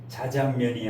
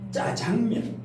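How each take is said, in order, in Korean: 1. 첫소리 자음은 평음이고 부드러워요. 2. 첫소리 자음은 경음이고 세고 딱딱해요. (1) "자장면이 아니라" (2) "된 소리를 좋아해요"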